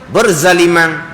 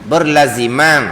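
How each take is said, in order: First: The z sound comes before the l sound. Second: The l sound comes before the z sound. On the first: The speaker calls it wrong. "dia ada orang dia tak nak sebut berlaziman. Lepas tu berzaliman" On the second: The speaker calls it right. "bukan berzaliman, berlaziman"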